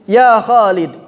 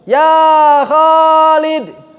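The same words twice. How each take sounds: First: The vowels are kept at normal short length. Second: The vowel is drawn out much longer than normal. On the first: An ordinary call to someone. "manggil orang segitu, nggak ditambahin" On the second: The person being called has not answered. "nggak disaut-sautin"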